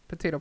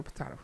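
First: "potato" as puh-TAY-toe; potato with long A. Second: "potato" as puh-TAH-toe, softer; potato with broad A. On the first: Host shrugging off which one it is, "potato" as puh-TAY-toe. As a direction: say "potato" with an AY in the middle. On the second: Host shrugging off which one it is, "potato" as puh-TAH-toe. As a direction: say "potato" with an AH in the middle. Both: Shown as a demonstration. Two ways of saying potato.

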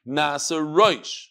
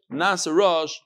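First: Nasa roish with an "oy" vowel; read as roish. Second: Rosh said "rush", with no "oy"; read as rash. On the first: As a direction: draw out roish to rhyme with "voice", ending in sh. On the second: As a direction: give rosh a short open vowel. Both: Shown as a demonstration. Contrasts two readings of the word.

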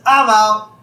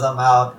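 First: Loud, higher-pitched mock call; Barney. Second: Said in the usual way. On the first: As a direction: call it out high and loud, as a bar buddy folding. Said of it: "And Barney says". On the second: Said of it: "And Lenny says".

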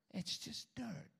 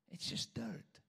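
First: Said in the usual way. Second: Whispered, higher and soft; hushed whisper. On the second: Shown as a demonstration. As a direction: breathe it out as a secret. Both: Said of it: "repeated dirt line".

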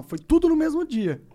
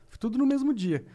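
First: "tudo" pushed higher and louder; stress on tudo. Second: Said in the usual way. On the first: Real, not acted. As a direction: hit "tudo" hard, rising on it. Repeats the claim for emphasis. (ênfase forte em "tudo", mais alto)

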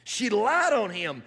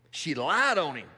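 First: She lied on him, slower, higher and louder, with "lied" hit hard; emphatic repeat. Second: Said in the usual way. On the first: Shown as a demonstration.

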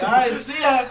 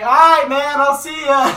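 First: Loud but less forceful farewell; retold called-back reply. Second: Very loud, high holler; shouted farewell. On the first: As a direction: lightly holler back to the next car. Teller replies to the shouted farewell. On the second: Retold or imitated. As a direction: imitate yelling goodbye from a car window. Guy yells farewell from car.

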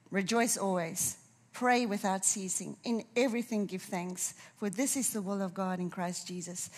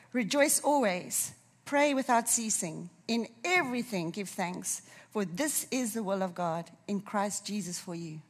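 First: Said in the usual way. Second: Solemn scripture reading. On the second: Shown as a demonstration. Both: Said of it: "I'm gonna read it to us".

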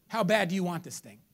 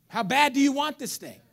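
First: Said in the usual way. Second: "you" punched higher and louder in "How bad do you want this thing?"; stress on you. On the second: Shown as a demonstration. Preacher to congregation, "you" stressed hard. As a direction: hit "you" hard the second time.

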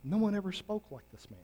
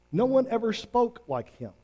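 First: Softer, higher, hushed in wonder; a quiet marvelling report; awed officers. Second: Much higher and fuller, stressing one; a rising, insistent echo of wonder; emphatic awe. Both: Retold or imitated. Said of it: "the officers simply answered this".

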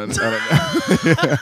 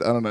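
First: High, slow, drawn-out with a laugh; silly stretched voice. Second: Said in the usual way. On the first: Pretend. Repeating the line to a friend, silly high drawl.

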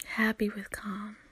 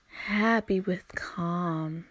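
First: Softer, breathy whispered happy with calm. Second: Slow, stretched happy with calm; slow, drawn out. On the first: Advising her listeners, she whispers Happy with calm softly. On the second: Advising her listeners, she drags out happy with calm slowly. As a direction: let each word of happy with calm linger, slowly. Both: Shown as a demonstration. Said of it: "repeats the phrase two ways".

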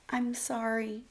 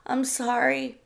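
First: Small, soft and high apology; frightened wife apologising meekly. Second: Higher, forced-out apology; frightened wife forcing her apology louder; as loud as she could. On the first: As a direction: barely dare to say it. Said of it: "Sarah said meekly". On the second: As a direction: push the words out with effort. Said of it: "she said as loud as she could". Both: A narrator's reading.

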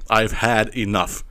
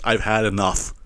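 First: "I've had enough" slowly, word by word; slow emphatic repeat. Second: Said in the usual way. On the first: Real, not acted.

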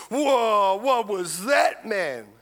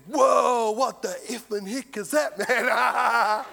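First: Louder, higher startled whoa, the polite version; a cleaned-up, milder version of his shock; toned-down retelling. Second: Shouted whoa, higher and louder, half laughing; startled shout. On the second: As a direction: let it burst out like a shocked bloke. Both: Retold or imitated. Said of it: "Well, he didn't say it like that".

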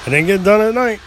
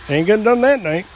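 First: Said in the usual way. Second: "that" hit hard to correct the line; stress on THAT. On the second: Shown as a demonstration. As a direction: lean on the word "that" as a correction.

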